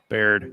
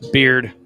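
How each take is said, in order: First: The name rhymes with 'cared'. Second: The name rhymes with 'cheered'. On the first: The speaker calls it wrong. "I'm saying it wrong" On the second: The speaker calls it right. "It's Beard"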